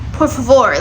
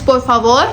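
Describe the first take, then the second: First: It is pronounced the Portuguese way. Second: It is pronounced the Spanish way. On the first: "in Portuguese it's por favor" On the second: "in Spanish it's por favor"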